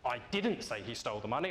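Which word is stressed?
didn't. The stress is on the word didn't.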